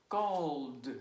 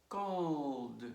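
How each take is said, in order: The two takes are said the same way.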